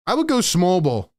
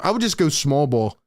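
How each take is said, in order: First: Would pressed firmly, ending on a fall; I WOULD go small ball; stress on would. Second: Just leaned on, the rest falling away; I would JUST go small ball; stress on just. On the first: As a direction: lean on the word would. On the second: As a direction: hit the word just. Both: Real, not acted. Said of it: "repeats the line".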